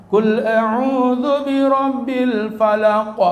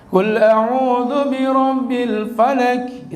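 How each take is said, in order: First: "falaq" with a bouncing qalqalah on the qaf, slow; slow chanted Quran line with qalqalah; correct tajwid recitation. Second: "falak" read flat, qaf with no echo, slow; slow chanted Quran line, qaf unbounced; wrong tajwid recitation. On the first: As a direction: recite "Qul a'udzu birabbil falaq" properly, echoing the final qaf. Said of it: "Mestinya begitu". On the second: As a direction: recite "Qul a'udzu birabbil falak" the wrong way. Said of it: "Itu namanya bisa ngaji tapi salah". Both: Shown as a demonstration.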